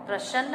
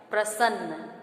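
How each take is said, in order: First: प्रसन्न with sh in place of s, "prashann"; mispronunciation. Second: प्रसन्न with a clean s, "prasann"; correct pronunciation. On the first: Teacher flagging the wrong pronunciation, sh for s. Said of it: "हमारा गलत उच्चारण हो जाएगा". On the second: Teacher giving the right word, clear s pronunciation. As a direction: say प्रसन्न as "pra-sann", s not sh. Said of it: "तो शुद्ध शब्द हमारा है". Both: Shown as a demonstration.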